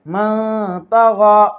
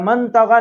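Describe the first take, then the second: First: The n sound is hidden nasally with ghunna. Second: The n sound is pronounced clearly without hiding. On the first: The speaker calls it right. "नूने साकिन के आवाज को नाक में छुपाकर गुन्ने और इक्फा के साथ पढ़ेंगे" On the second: The speaker calls it wrong. "नहीं पढ़ना है"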